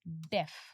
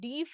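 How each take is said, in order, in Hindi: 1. स्वर एक छोटी 'eh' ध्वनि है। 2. स्वर एक लंबी 'ee' ध्वनि है। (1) "इसकी प्रोनाउंसिएशन होती है डेफ" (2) "इसकी प्रोनाउंसिएशन डीफ नहीं होती"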